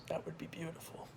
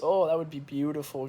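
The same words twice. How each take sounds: First: Whispered, dreamy. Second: Said in the usual way. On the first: Shown as a demonstration. Vlogger repeating his podcast dream in a whisper. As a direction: breathe it out softly like a wish.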